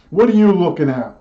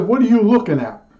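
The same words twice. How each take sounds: First: Mock-menacing kid glaring at a doll; kid's mock threat. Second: Higher, punchier challenge at the stuffed raccoon; mock threat to the raccoon. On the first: Child snaps at a baby doll, mildly menacing. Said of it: "like that". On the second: Clerk glares at a stuffed raccoon, mock aggressive. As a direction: play the berserk kid, half joking. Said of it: "I sort of relived that".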